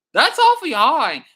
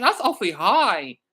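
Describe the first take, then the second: First: "awfully" pushed up high and louder; louder, higher second "That's awfully high."; emphatic repeat. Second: Said in the usual way. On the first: Real, not acted. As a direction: hit "awfully" harder on the repeat. Repeats viewer stat.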